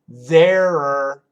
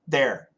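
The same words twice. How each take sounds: First: The contraction is said slowly and clearly. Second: The contraction is said very fast. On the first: "the contraction of there are" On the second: "when Americans say it really fast"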